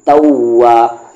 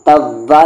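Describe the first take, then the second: First: The middle consonant is made with rounded lips. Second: The middle consonant is made with teeth on lip. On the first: The speaker calls it right. "कहना क्या है" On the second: The speaker calls it wrong. "तव्वा नहीं कहना है"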